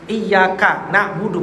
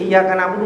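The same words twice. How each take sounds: First: The y sound in iyyaka is doubled, held longer. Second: The y sound in iyyaka is single and short. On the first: Only you, God, do we worship. The speaker calls it right. "pakai tasdid" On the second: Only you, sunlight, do we worship. The speaker calls it wrong. "Kalau nggak pakai tasdid"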